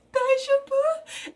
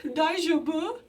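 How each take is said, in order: First: "Daijoubu?" much higher, slower and louder, rising; frantic repeat. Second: "Daijoubu?" asked a bit higher with a rising end; worried question. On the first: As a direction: plead it anxiously a second time. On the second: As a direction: ask gently if he's okay. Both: Retold or imitated. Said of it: "And she's like".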